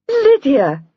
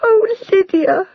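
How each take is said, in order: First: Higher and louder, a surprised gasp. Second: Much higher and louder, slow, sobbing; bursting into tears. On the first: Jenny gasps as Lydia arrives unexpectedly. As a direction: gasp her name in disbelief. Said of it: "gasped Jenny". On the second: Jenny bursts into tears greeting Lydia. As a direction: break down crying with joy. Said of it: "bursting into tears". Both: A narrator's reading.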